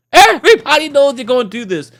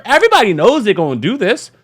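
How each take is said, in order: First: Emphatic repeat. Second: Said in the usual way. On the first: Shown as a demonstration. Repeated louder, higher.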